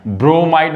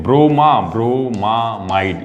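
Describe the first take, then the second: First: ब्रोमाइड as bro-mide, missing the middle MA; wrong pronunciation. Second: ब्रोमामाइड slowly, with MA before MIDE; correct pronunciation. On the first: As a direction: say ब्रोमाइड with only one MA sound, as bro-mide. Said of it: "ब्रोमाइड मत बोलना". (ब्रोमाइड, बीच का 'मा' छोड़कर) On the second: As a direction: sound out ब्रोमामाइड as bro-ma-mide, unhurried. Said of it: "तो उसको ब्रोमामाइड बोलते हैं". (ब्रोमामाइड धीरे-धीरे, 'मा' साफ़ बोलकर) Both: Shown as a demonstration.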